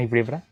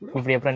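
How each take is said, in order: First: ఇప్పుడు pressed with a rising lift, ఎప్పుడా light; stress on ఇప్పుడు. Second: ఎప్పుడా pressed hardest, ఇప్పుడు light; stress on ఎప్పుడా. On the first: Teasing friend, asking which room wins, with ఇప్పుడు stressed. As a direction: lean on ఇప్పుడు as a teasing question. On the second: Teasing friend, pressing for an answer, with ఎప్పుడా stressed. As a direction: hit ఎప్పుడా as a playful challenge. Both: Real, not acted. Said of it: "ఇప్పుడు చెప్పు".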